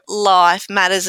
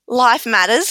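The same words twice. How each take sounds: First: The stress falls on the word life. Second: The stress falls on the word matters. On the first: It refers to things in life. "as in things in life" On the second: Life is important. "as in life is important"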